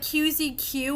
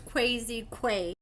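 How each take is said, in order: First: The name is spoken as three separate letters. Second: The name is spoken as two whole words. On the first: The speaker calls it wrong. "I said like Q Z Q at first" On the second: The speaker calls it right. "I'm pretty sure it's Quasi Quay"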